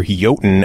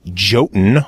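First: Jotun with a Y sound; proper pronunciation. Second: Jotun with an English J; hard J opening Jotun, as in jar; J pronunciation. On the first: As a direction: say Jotun as YOH-tun. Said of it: "properly pronounced". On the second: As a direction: say Jotun as JOH-tun. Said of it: "they prefer to say Jotun". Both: Shown as a demonstration.

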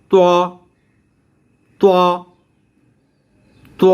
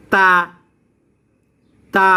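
First: ত heavy and rounded; rounded lips. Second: তা open and light; spread lips. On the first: Teacher demonstrating lip shape, rounded heavy to. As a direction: purse the lips round for each separate ত. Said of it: "ত বলার সময় ঠোঁটগুলা গোল হবে". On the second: Teacher demonstrating lip shape, spread open ta. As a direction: pull the lips wide for each separate তা. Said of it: "তা বলার সময় ঠোঁটগুলা সরেয়া যাবে". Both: Shown as a demonstration.

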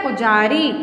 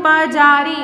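First: पुजारी said pu-jaa-ri; the right form पुजारी; corrected word. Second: पजारी said pa-jaa-ri, louder; the mistaken पजारी, stressed; wrong form. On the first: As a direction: give पुजारी a clear short u. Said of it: "क्या होता है". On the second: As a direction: read पजारी without the u sound. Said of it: "पजारी नहीं होता". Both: Shown as a demonstration.

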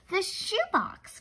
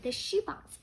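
First: "The shoebox" said slowly and higher, as a sudden thought; drawn out, puzzling over "The shoebox"; thoughtful. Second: Musing repeat. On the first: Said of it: "She thought for a moment". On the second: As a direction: turn it over in her mind, ending up on "shoebox". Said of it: "she said again". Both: A narrator's reading.

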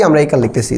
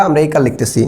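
No difference in how they are said.

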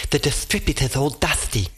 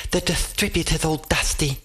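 First: Lisped "distributor's" and "dusty" as th. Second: Lisping through a mouthful; talking with a mouthful of food; mouth full. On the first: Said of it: "Her lisp was bad enough". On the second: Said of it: "through a mouthful of crispy scales". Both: Acted.

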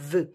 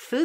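First: "th" buzzed with the voice; voiced th. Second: "Th" as unvoiced breath between the teeth; voiceless th. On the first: Teacher contrasting the two sounds, voiced th second. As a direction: give the voiced "th" it turns into. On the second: Teacher contrasting the two sounds, voiceless th first. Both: Shown as a demonstration. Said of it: "Th devine th".

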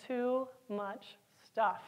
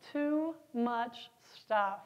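The two takes are said the same way.

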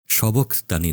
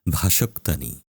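First: সবক্তানি with an opening "sho" sound; rejected form সবক্তানি. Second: ভাষক্তানি with an opening "bha" sound; correct form ভাষক্তানি. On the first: Preacher rejects the familiar wording, সবক্তানি said with "sho". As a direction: say সবক্তানি starting "sho-bok", without "bha". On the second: Preacher gives the Hebrew wording, ভাষক্তানি said with "bha". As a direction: say ভাষক্তানি low, starting "bha-shok". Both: Shown as a demonstration. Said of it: "সবক্তানি নয়".

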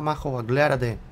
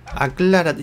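First: Said in the usual way. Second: Aclárate repeated higher and louder; louder self-scolding. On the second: Real, not acted. Builder scolding himself, louder Aclárate. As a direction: snap at yourself to decide.

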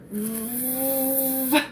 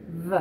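First: Pressed buzzing v; heavy v. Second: Lip barely touching teeth on v; light v. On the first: Speech teacher modelling the rabbit, a heavy v. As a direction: press lip to teeth hard on the v. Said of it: "Robert Rabbit says it really heavy". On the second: Speech teacher modelling the turtle, a light v. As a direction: brush the v lightly. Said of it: "Tina Turtle says". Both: Shown as a demonstration.

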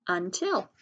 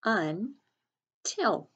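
First: Said in the usual way. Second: "Until" split as Un, long pause, til; slow, broken-up "Until" for early readers; syllable by syllable. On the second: Shown as a demonstration. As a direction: sound out "Until" in two separate syllables. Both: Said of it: "sound it out by syllables".

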